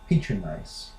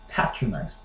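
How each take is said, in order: First: It is said in an American accent. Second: It is said in a British accent.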